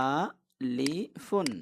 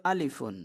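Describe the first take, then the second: First: আলিফুন drawn out very slowly in three separate parts; syllable by syllable. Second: Said in the usual way. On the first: Shown as a demonstration. Teacher naming the letter for students, syllable by syllable. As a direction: break আলিফুন into a, li, fun with long vowels. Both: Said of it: "এটার নাম কি?".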